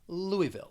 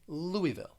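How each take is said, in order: No difference in how they are said.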